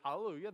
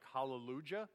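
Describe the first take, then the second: First: It is pronounced the usual spoken way. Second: It is pronounced the way the spelling looks. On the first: The speaker calls it right. "but it's hallelujah. That's how you say it" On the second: The speaker calls it wrong. "I know it's spelled like it looks like hallelujah"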